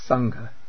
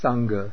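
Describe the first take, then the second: First: The g is said with a puff of air. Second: The g is said without a puff of air. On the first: The speaker calls it right. "But a little aspiration there" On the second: The speaker calls it wrong. "Not Sangha"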